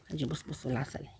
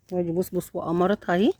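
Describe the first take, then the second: First: Much softer and lower, near a whisper; hushed. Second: Said in the usual way. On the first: Real, not acted. Showing viewers the cat, in a hushed voice. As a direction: hush so you don't wake the kittens.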